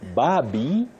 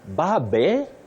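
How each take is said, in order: First: The second syllable has a long 'ee' vowel. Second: The second syllable has a short, weak vowel. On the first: The speaker calls it right. "yes. ... That E after B takes the sound E" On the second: The speaker calls it wrong.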